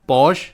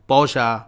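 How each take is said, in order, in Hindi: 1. शब्द एक व्यंजन ध्वनि पर समाप्त होता है। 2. शब्द के अंत में एक अतिरिक्त 'a' स्वर जुड़ा है। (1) "जो हिंदी वाला प्रोनाउंसिएशन है" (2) "इंग्लिश में लिखा है ना, इसीलिए आगे लास्ट में ए लगा रहा है"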